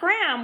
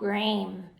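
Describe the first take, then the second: First: The vowel is a short a sound. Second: The vowel is a long a sound. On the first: The speaker calls it wrong. "Not gram, which is a real word" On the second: The speaker calls it right. "once you add that silent E, it turns the vowel long"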